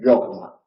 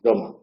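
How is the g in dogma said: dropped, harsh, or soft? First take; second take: soft; dropped. First: The g is a soft, relaxed sound. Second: The g sound is left out entirely. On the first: "una aproximante" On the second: "Otra posibilidad es eliminarla"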